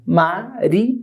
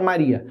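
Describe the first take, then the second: First: "Maria" split as ma, ri, a; separado em sílabas. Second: Said in the usual way. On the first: Shown as a demonstration. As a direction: say "Maria" in three detached syllables, ma, ri, a. ("Maria" pausado: ma, ri, a) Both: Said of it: "Como é que eu separo".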